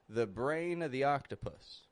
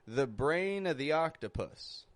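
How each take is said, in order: The two takes are said the same way.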